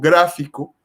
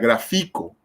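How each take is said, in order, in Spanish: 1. El acento está en la primera sílaba. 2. El acento está en la sílaba del medio. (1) "el acento va en gra, que sería la antepenúltima sílaba" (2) "si la fuerza tónica en este caso fuera en la, en la penúltima"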